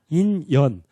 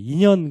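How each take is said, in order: First: The two syllables are kept clearly apart. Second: The two syllables are run together smoothly. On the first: The speaker calls it right. "발음을 잘해야 돼요" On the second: The speaker calls it wrong. "인연 그러면 안 되고"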